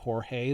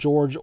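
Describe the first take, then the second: First: The name sounds like Spanish Jorge. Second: The name sounds like English George. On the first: This is how the name is said today. "today we would pronounce that Jorge" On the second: This is how the name was said in the past. "back in the day they just called him George Orta"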